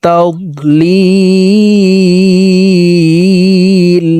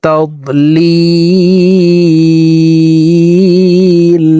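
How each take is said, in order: Both takes have the same delivery.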